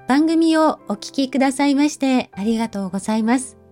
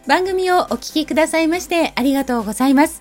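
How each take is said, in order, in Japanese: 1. ゆっくりしたピアノに合わせて、遅く穏やかに話している。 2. アップテンポのビートに合わせて、速く明るく話している。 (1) "先ほどのようなゆっくりしたピアノのBGM は優しい気持ちになる" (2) "最初の明るいビートの曲"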